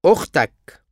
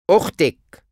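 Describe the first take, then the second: First: أختك said okhtak, ending in -ak; masculine you form. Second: أختك said okhtek, ending in -ek; feminine you form. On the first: Teacher drills the masculine form of your sister. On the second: Teacher drills the feminine form of your sister. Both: Shown as a demonstration.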